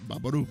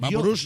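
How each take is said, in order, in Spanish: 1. La palabra termina en vocal, no en s. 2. La palabra termina en sonido s. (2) "Vaporus no"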